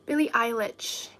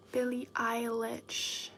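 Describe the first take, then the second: First: Said in the usual way. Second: Whispered name. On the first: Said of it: "repeats name, tries it". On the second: Shown as a demonstration. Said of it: "repeats name softly".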